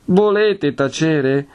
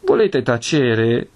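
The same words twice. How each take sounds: First: High-pitched, drawn-out demand for silence; escalated exasperation. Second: Slow, drawn-out demand for silence; exasperated hushing. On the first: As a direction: raise the pitch and insist, alarmed. Priest repeats the order, escalating. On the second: Priest cutting off his housekeeper's advice, exasperated. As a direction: stretch it out, first warning. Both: Acted.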